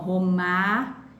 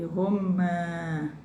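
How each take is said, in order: First: The final vowel is open and not nasal. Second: The final vowel is nasal, as through the nose.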